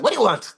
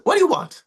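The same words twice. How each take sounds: First: Higher, amused question; Krishna calmly facing down a monster; unbothered Krishna. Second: High, bright, unafraid question; Krishna calmly facing down a monster; unbothered Krishna. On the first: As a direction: toss it off lightly, unafraid. Krishna again unafraid. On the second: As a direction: ask it as if the monster is nothing. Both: Acted.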